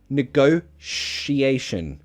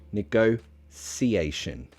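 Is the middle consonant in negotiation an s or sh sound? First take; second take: sh; s. First: The middle consonant is a sh sound. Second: The middle consonant is an s sound. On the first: "As a sh" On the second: "or a s"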